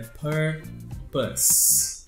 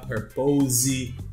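First: The final consonant sounds like an s. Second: The final consonant sounds like a z. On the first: The speaker calls it right. "esse S aí tem som de S mesmo" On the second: The speaker calls it wrong. "nada de falar purpose"

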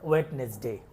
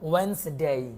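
First: A d sound is pronounced in the middle. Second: No d sound is pronounced in the middle. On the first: The speaker calls it wrong. "অনেকেই আমরা এটাকে ওয়েডনেসডেই বলি" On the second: The speaker calls it right. "এখানে ডি এর উচ্চারণ আমরা করব না।"

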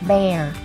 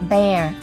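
The two takes are said the same way.

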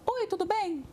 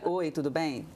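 First: Spoken in a higher, lighter voice. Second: Spoken in a deeper, more resonant voice.

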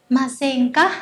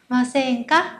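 No difference in how they are said.

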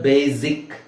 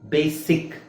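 First: The middle consonant is a buzzing z sound. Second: The middle consonant is a hissing s sound. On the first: The speaker calls it wrong. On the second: The speaker calls it right.

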